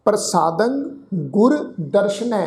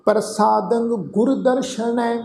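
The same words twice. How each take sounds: First: Said in the usual way. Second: ਪ੍ਰਸਾਦੰ ਗੁਰ ਦਰਸ਼ਨੈ chanted slowly, drawn out; slow recitation. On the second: Shown as a demonstration. Teacher chanting the line before breaking it down, slow. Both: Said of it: "ਇੱਥੇ ਤੁਸੀਂ ਦੇਖੋ".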